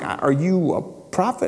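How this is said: It sounds genuinely puzzled and confused.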